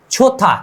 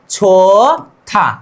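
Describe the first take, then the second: First: Said in the usual way. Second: छोथा drawn out very slowly, syllable by syllable; slow pronunciation demo. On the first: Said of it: "क्या?". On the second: Shown as a demonstration. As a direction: stretch out छोथा slowly for the learners. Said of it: "उच्चारण क्या हो गया?". (छोथा को बहुत धीरे धीरे बोलें)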